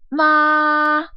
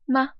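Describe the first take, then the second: First: The pitch stays high and level throughout. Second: The syllable is short, light and unstressed. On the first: "starts and ends high" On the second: "a neutral tone, so it's very unstressed"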